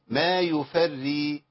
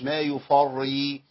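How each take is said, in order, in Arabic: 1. الراء المشددة تُنطق رقيقة وخفيفة. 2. الراء المشددة تُنطق ثقيلة ومفخمة. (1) "طالما توسطت قراءتي هي مرققه على طول" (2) "مش"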